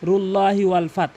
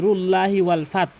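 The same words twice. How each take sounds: Both takes have the same delivery.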